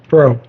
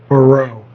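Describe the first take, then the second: First: The name is said as one short syllable. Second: The name is drawn out over two syllables. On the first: The speaker calls it right. "Bro, like yo, bro" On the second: The speaker calls it wrong. "So you don't have to go Barreau"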